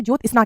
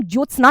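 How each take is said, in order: First: ज्योत्सना split as "jyot-isna"; small break, "JYOT... SNA" in ज्योत्सना; correct pronunciation. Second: ज्योत्सना contrasted as run-on "jyotsana"; wrong pronunciation. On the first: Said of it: "ज्योत्सना कहते हैं". (ज्योत्सना में आधा 'स', तोड़कर) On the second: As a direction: say ज्योत्सना in one run, "JYOT-sna". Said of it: "ज्योत्सना नहीं कहते". (ज्योत्सना को बिना रुके बोलना) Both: Shown as a demonstration.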